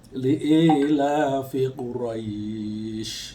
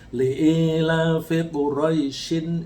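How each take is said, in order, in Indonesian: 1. Diftongnya dipanjangkan saat berhenti. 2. Diftongnya pendek dan bersambung dengan kata berikutnya. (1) "kalau berhenti ... menjadi panjang" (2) "kalau disambung ... Roy-nya pendek"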